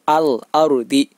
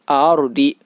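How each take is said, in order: First: The l of al is said clearly. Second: The l of al is dropped. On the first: The speaker calls it right. "Akan tetapi al ardi" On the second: The speaker calls it wrong. "Tidak boleh dibaca a ardi"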